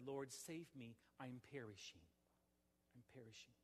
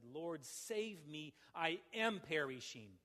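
First: "Lord, save me, I'm perishing" murmured much softer, fading away; hushed plea. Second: "Lord, save me, I am perishing" said slowly as an urgent exclamation, not a question; exclamatory cry. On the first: Pastor voicing a sinner's private plea to the Lord, hushed and fading. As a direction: sink the repeated "I'm perishing" down to almost nothing. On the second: Pastor modelling the sinner's cry to God, slow urgent exclamation. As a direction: plead "save" slowly and firmly, landing it as a statement.

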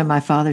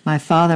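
First: Repeated my father, a little quieter; cried, softer echo. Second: First cry of my father, louder and rising. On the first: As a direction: let the second call sink back. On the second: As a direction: call out desperately, voice lifting at the end. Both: A narrator's reading. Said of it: "she cried".

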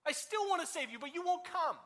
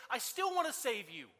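First: Higher, longing repeat; the same words again, pitched up and aching; pleading. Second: Said in the usual way. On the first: Acted. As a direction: lift it higher the second time, pleading. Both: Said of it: "he says".

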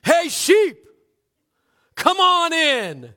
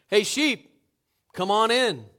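First: Huge, high, drawn-out holler; full-force yell. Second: Easy, moderately loud call; slightly raised voice. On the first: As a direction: yell it like a revival preacher calling sheep. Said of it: "into a yell that revival preachers around the world would envy". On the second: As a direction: call the sheep with only a little lift. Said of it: "Raising his voice only slightly". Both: Acted.

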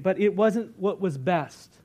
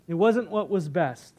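First: Slow. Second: Wasn't pressed hard and falling; stress on wasn't. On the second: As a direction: lean on the word wasn't, then let it drop. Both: Shown as a demonstration.

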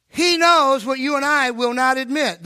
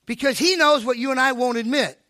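First: "knows" and "not" pressed louder, "will not" split out for weight; emphatic restatement. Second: Said in the usual way. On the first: Shown as a demonstration. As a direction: repeat it louder, leaning on "knows" and hitting "not" hard.

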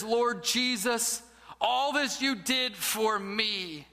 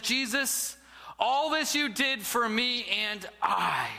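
First: Slow, sincere prayer on the edge of tears; humbled, breaking. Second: Careless, offhand prayer, a little slower; flippant. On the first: Man finally moved before the crucifix, slow and broken. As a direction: let the pride crack as the words land. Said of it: "he bursts into tears". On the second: Arrogant man at the statue of Jesus, flippant. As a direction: toss the words off as if they mean nothing. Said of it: "flippantly he looks up". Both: Acted.

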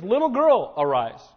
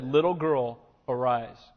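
First: Ringing command. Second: Gentle command. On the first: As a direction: call her back to life. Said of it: "And so he says". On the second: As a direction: tenderly lift the girl from death. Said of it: "took the little girl by the hand and said". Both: Retold or imitated.

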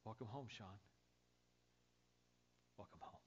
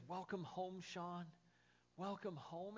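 First: Softer, gentle, fading greeting; tender welcome. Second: Raised, bright, delighted greeting; joyful welcome. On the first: Jesus greeting the pastor at heaven's gate, soft and tender. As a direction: say it quietly like a loving embrace. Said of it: "there's Jesus". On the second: Jesus greeting the pastor at heaven's door, joyful and raised. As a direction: lift it up like a happy reunion. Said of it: "And he says". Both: Acted.

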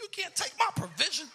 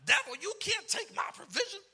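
First: Much higher, loud, insistent; stomping rebuke. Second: Much higher, loud commanding rebuke; stomping rebuke. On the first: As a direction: drive it home to the devil. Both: Retold or imitated. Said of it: "I was stomping everything".

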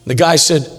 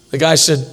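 The two takes are said the same way.

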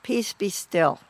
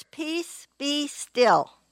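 First: Calm command. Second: "Peace" lifted high, then "be still" falls away; lifted command. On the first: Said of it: "and he said". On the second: Jesus waking and speaking to the storm, raised and commanding. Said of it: "he spoke three words". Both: Retold or imitated.

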